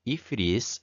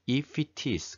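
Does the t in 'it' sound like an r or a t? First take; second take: r; t. First: The words link, with the t sounding like r. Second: The words link, with a clear t sound. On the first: "t에 액센트가 없으면 이것이 r로 단 다음 r로 발음이 바뀝니다. 그래서 if it is 이렇게 발음이 됩니다" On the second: "그러니까 if it is가 되죠"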